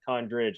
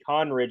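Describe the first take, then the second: First: It is said with a 'd' before 'ridge'. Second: It is said without a 'd' before 'ridge'. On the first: "and not Condridge" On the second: "I want to say Conridge"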